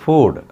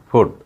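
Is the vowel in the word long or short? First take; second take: long; short. First: The vowel is long. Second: The vowel is short. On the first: The speaker calls it right. "ஃபுட் அப்படின்னு சொல்லணும்" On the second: The speaker calls it wrong. "நார்மலாக அப்படி சொல்லுவாங்க. ஆக்சுவலாக அப்படி அதை சொல்லக்கூடாது"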